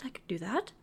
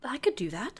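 First: Unvoiced whispered repeat. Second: Said in the usual way. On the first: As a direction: whisper it to yourself.

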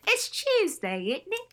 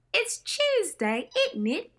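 First: Her own proud British accent on It's Tuesday, isn't it, higher. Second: Put-on Renee's crisp British accent on It's Tuesday, isn't it, slow and high. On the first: Shown as a demonstration. Host showing off her learned line, British accent. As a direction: show off the English accent, tag question rising. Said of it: "proud of myself for being able to do". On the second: Host recalling Renee's line, slow high British accent. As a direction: quote Renee's English accent, lifting on Tuesday. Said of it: "Renee had a nice".

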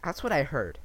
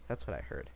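First: Said in the usual way. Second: Low, soft muttered repeat. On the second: Real, not acted. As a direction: drop the voice, say it under your breath. Repeats own line much lower.

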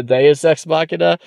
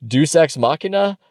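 First: "Deus" in two syllables, "day-us", in "Deus Ex Machina"; corrected pronunciation. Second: "Deus" as one syllable, "doos", in "Deus Ex Machina"; unsure pronunciation. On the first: Podcaster copying his co-host's correction, "Deus" said as "day-us". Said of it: "what's the correct way to say it". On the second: Podcaster admitting he can never say it, "Deus" said as "doos". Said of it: "I can never say". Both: Shown as a demonstration.

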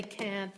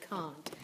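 First: Said in the usual way. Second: "can't" with a broad ah, like "cahnt"; British "can't", open back ah vowel; British long A. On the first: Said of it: "We say can't". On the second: Shown as a demonstration. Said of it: "they say can't".

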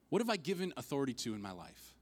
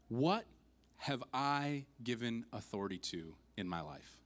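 First: Said in the usual way. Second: "What" raised alone, then a pause; weighty question broken after "What"; dramatic pause. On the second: Real, not acted. Preacher poses key question with pauses.

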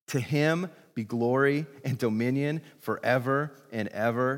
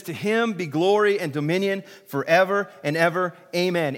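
First: Said in the usual way. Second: Lifted and louder, proclaiming glory; proclaimed. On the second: Shown as a demonstration. Pastor leading the church in the doxology, proclaiming. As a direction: ring it out as praise. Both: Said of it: "Say it with me".

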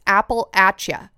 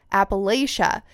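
First: Appalachia said as "apple-atch-uh", short a and ch; the local Appalachia, ap-uh-LATCH-uh; local pronunciation. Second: Appalachia said as "apple-ay-shuh", long a and sh; the wrong Appalachia, ap-uh-LAY-shuh; wrong pronunciation. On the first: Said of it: "the way that locals say it". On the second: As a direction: Appalachia the way outsiders say it. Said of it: "commented and said it's". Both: Shown as a demonstration.

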